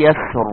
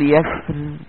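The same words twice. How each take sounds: First: يسر with a full, heavy ر; heavy Raa. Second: يسر with a thin, light ر; light Raa. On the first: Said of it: "قلتها مرة بالتفخيم". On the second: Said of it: "نفس الكلمة بالترقيق". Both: Shown as a demonstration.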